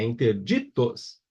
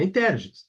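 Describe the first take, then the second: First: "interditos" slow, with stretched "di"; tônica em DI. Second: "interditos" wrongly stressed on "ter"; tônica errada em TER. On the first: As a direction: say "interditos" syllable by syllable, leaning on "di". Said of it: "é interditos". ("interditos" devagar, com força no "di") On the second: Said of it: "Não é interditos". ("interditos" com força errada no "ter") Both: Shown as a demonstration.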